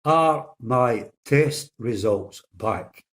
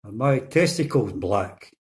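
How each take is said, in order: First: Very slow, deliberate question; patient slowly spelling out the question to the nurse. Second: Slow, muffled mumble of a patient; lightly mumbled question from a hospital trolley; mumbled through a mask. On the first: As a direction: spell it out slowly so she finally hears. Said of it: "but listen very closely". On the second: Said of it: "he mumbles through his mask". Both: Retold or imitated.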